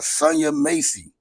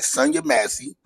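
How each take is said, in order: First: The surname's first vowel is a long 'ay'. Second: The surname's first vowel is a short 'a'. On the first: The speaker calls it wrong. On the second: The speaker calls it right.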